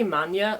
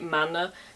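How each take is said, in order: First: The n is followed by a y-glide. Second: The n is plain, with no y-glide. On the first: This is the speaker's own pronunciation. "I say Manya" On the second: Some other people pronounce it this way. "some people say Manna"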